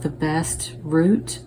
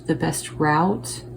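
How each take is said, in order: First: Route rhyming with "boot"; route as "root". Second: Route rhyming with "out"; route as "rowt". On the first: Tarot reader trying both pronunciations, route said as "root". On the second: Tarot reader offering the other pronunciation, route said as "rowt". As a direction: say route with an ow vowel, as in shout. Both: Shown as a demonstration. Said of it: "however you pronounce that".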